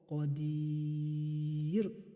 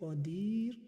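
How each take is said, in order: First: The long vowel is held for six counts. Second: The long vowel is held for two counts.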